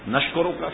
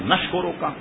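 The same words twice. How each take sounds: Both takes have the same delivery.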